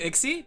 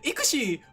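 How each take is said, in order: First: The name is said in two syllables, like Ixie. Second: The name is said in three syllables, like Ikushi. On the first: The speaker calls it wrong. "I've been pronouncing it wrong all along" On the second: The speaker calls it right. "you're right"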